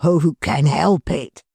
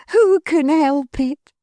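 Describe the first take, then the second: First: Mister Tetterby's cry. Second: Higher, slow, fond wife's cry; Missus Tetterby's cry. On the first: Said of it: "cried Mister Tetterby". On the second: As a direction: echo her husband warmly. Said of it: "cried Missus Tetterby". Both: Acted.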